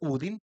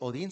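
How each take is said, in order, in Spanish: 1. El nombre empieza con sonido U. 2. El nombre empieza con sonido O. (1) "en noruego se dice Udin" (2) "que no se dice Odín"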